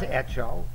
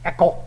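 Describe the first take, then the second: First: The middle consonant is a ch sound. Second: The middle consonant is a k sound. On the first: The speaker calls it wrong. "todo en México dice hecho. Pero no es hecho" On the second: The speaker calls it right. "Como está escrito E-K-O. Eco. Es como se dice"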